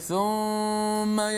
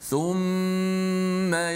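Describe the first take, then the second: First: The nasal hum on the m is cut short. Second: The nasal hum on the m is held long. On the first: The speaker calls it wrong. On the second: The speaker calls it right.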